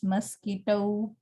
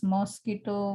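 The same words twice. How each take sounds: First: "mosquito" with a reduced first syllable; British pronunciation. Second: "mosquito" with a full o in the first syllable; Indian pronunciation. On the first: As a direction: say "mosquito" as muh-SKEE-toh, British model. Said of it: "while it's mosquito". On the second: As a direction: say "mosquito" as mos-KEE-to, Indian English. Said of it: "We pronounce mosquito". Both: Shown as a demonstration.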